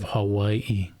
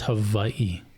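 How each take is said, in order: First: The middle consonant is a W sound. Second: The middle consonant is a V sound. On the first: "as a soft W" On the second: "why didn't they use the letter V?"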